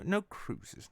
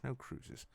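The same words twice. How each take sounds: First: Said in the usual way. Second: Much softer, almost under the breath; trailing off. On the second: Acted. Host repeats no cruises to himself, fading out. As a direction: let the verdict die away.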